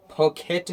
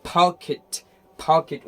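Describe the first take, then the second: First: "पॉकेट" ending in an e sound, "-ket"; wrong pronunciation. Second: "पॉकेट" louder, ending in short "-khit"; correct pronunciation. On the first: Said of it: "पॉकेट नहीं होता". ("पॉकेट" के अंत में केट) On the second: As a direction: model "पॉकेट" firmly as PO-khit. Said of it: "उसको खिट बनना". ("पॉकेट" ज़ोर से, अंत में खिट) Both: Shown as a demonstration.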